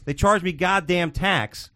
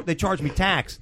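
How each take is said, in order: First: Slow, heavy "charged" and "goddamn"; slow indignant stress on "charged". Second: Said in the usual way. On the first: Real, not acted. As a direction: drag out "They charged me goddamn tax" in disbelief. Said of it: "repeated for emphasis".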